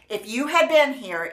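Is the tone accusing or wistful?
accusing. It sounds accusing and scolding.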